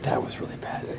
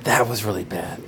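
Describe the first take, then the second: First: Whispered, no voice at all. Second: Said in the usual way. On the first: Shown as a demonstration. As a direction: breathe it as a whisper.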